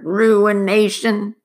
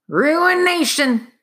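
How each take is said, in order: First: Slow, loud, drawn-out mutter; muttering miner. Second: High, slow, drawn-out mutter; muttering miner. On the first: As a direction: repeat it grimly, drawn out. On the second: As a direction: brood over the word like a ruined man. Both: Acted. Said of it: "the miner began to mutter".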